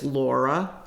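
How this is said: It is said in a Philadelphia accent.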